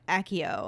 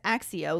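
First: The double C is said as a plain k. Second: The double C is said as ks. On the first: "I know the movies say Accio" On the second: "I always read it as Accio, like accident, with the double C"

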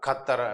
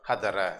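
First: The word begins with a hard k sound. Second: The word begins with a soft h sound. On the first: The speaker calls it wrong. "தடித்த சத்தம் கானா சொல்லக்கூடாது, கத்தர என்று சொல்லக்கூடாது" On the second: The speaker calls it right. "வடமொழி கானா சத்தத்தில் மெல்லிய சத்தமாக சொல்ல வேண்டும்"

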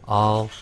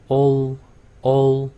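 First: The vowel is open, like 'uh' (Korean 어). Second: The vowel is rounded, like 'oh' (Korean 오). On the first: The speaker calls it right. "O 발음도 제대로 내면 all, all 이렇게 될 거예요. 발음에서 어 이렇게 되니까" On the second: The speaker calls it wrong. "오 발음을 잘못 발음하면 all 이렇게 될 거예요"

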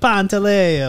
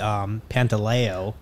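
First: It is said with an Italian pronunciation. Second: It is said with an East Coast American pronunciation. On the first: "I went to Italy and they're like" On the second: "a bunch of family on the East Coast. They say"

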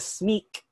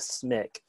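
First: It is said with a French pronunciation. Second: It is said with an English pronunciation. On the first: "as the French would pronounce it" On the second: "as us English speakers would pronounce it"

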